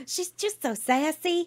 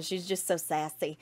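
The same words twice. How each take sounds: First: Sassy. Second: Said in the usual way. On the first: Pretend. Repeating with sassy flair.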